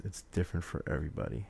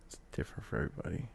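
First: Said in the usual way. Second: Fast unvoiced whisper; whispered repeat. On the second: Shown as a demonstration. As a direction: whisper it quickly to yourself.

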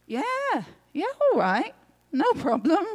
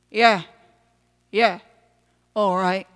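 First: High, swooping, lighter yeah; breezy agreement. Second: Short, grudging little grumble; grumbling. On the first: Acted. Luke eagerly agrees with the man. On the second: A narrator's reading. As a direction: grumble a reluctant yes. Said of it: "the tiny man grumbles".

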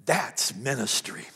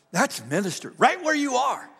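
First: "that's ministry" said low and slow, weighed out; solemn low. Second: "That's ministry" climbing high and loud into "right where you are"; ringing proclamation. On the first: Pastor telling the congregation "that's ministry", low and slow. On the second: Pastor proclaiming "That's ministry" to the congregation, high and loud. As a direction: lift "That's ministry" up into a shout. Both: Shown as a demonstration. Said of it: "Ladies and gentlemen".

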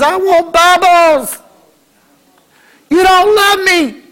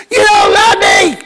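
First: Put-on high, slow, drawn-out child's whine; whiny child. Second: Put-on high, slow child's wail, louder. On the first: Child in the store whining at the parent, slow high whine. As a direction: whine like a spoiled kid denied a toy. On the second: Kid shouting at parents who refuse, high loud wail. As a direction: wail it like a kid throwing a tantrum.

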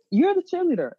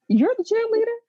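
First: YOU'RE hit high, then falling; stress on YOU'RE. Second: CHEERLEADER pitched high as a question; questioning emphasis. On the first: Handing the title back to a friend, stress on YOU'RE. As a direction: state it, punching "You're" and dropping away. Repeats it as a firm statement. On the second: Tossing the title back to a friend, questioning CHEERLEADER. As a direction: ask it with a high lift on "cheerleader". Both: Real, not acted.

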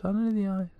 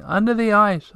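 First: High and much softer, dying away; the echo drifting off into the distance; fading echo. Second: High echo, still near and full; the echo bounces the words back; echo crying out. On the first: The echo repeats Tutiki again, fading far off. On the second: The echo repeats Tutiki, high and near. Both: A narrator's reading.

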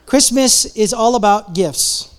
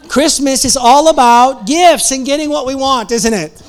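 First: "Christmas is all about gifts" spelt out slowly, each word weighed; slow down and let it land; slow and deliberate. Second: Louder and higher, still laughing; laughing through words. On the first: Repeats the line, slowed. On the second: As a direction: talk through the laughter, amused. Laughing after the punchline. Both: Real, not acted.

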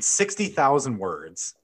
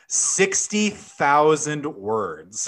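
First: Said in the usual way. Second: "sixty thousand words" slow, each word stressed; slow emphasis. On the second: Shown as a demonstration. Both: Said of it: "So again".

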